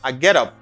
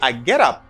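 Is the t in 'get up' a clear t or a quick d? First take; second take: quick d; quick d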